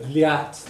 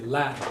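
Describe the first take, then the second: First: A y-like glide follows the l sound. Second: No glide follows the l sound. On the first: "instead of liat" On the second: "they would just say lat"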